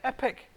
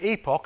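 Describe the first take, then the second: First: It is said with an American pronunciation. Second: It is said with a British pronunciation.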